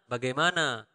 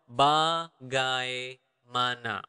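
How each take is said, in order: First: The word is said quickly, at natural speed. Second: The word is said slowly, syllable by syllable. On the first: "the normal speed would be bagaimana" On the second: "This is quite long"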